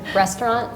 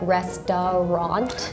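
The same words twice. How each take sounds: First: The middle syllable is dropped, said quickly. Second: Every syllable, including the middle, is pronounced. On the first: This is how native speakers usually say it. "I would say just restaurant" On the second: This is how it looks when read from the spelling. "it looks like restaurant"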